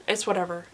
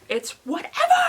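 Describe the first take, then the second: First: Said in the usual way. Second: High, loud sing-song shrug; higher, louder breezy take; mock nonchalance. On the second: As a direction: toss it off cheerily, pretending not to care. Repeated, higher brighter take.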